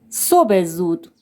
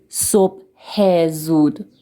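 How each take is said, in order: First: The phrase is pronounced loosely and relaxed. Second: The phrase is pronounced with forced, careful articulation. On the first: The speaker calls it right. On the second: The speaker calls it wrong.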